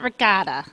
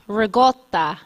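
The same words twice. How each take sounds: First: It is pronounced with English sounds. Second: It is pronounced with Italian sounds. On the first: The speaker calls it wrong. "It's not ricotta" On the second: The speaker calls it right. "That's how you say it"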